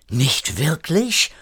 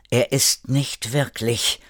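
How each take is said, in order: First: Slow, higher, mildly alarmed question; startled question. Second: Slow, mildly grave warning; earnest warning. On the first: Erik reacts to Alicia's warning, startled. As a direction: echo it in alarm, rising at the end. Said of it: "fragte Erik erschrocken". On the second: Alicia warns the others about the shapeshifter, earnest warning. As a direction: warn them seriously, without raising the voice. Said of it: "warnte Alicia ernst". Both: A narrator's reading.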